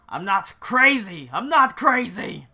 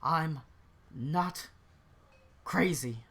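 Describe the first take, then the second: First: Loud, high, escalating outburst; desperate shouted denial; frantic protest. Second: Halting, word by word, far less forceful; worn-down, broken-up insistence; dejected denial. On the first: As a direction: shout it twice, climbing higher the second time. Lucien protests, swings at his mocker. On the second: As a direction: say it to yourself with long gaps between words. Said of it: "sort of his head in his hand". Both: Acted.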